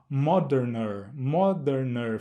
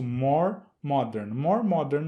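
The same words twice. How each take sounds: First: "moderner" pronunciado devagar, como exemplo de forma estranha; forma errada de propósito. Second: "More modern" dito devagar e claro, como forma certa; forma correta. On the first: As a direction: mostre "moderner" como o som que soa errado. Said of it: "fica estranho o som". ("moderner" dito devagar como exemplo errado) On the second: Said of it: "vamos tratá-lo como um adjetivo longo". ("More modern" pronunciado com calma como forma certa) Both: Shown as a demonstration.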